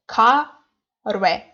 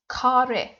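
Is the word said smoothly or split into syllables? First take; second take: split; smoothly. First: It is split into separate syllables. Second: It is said as one smooth word. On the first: The speaker calls it wrong. "not ka re" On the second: The speaker calls it right. "we read it like the word"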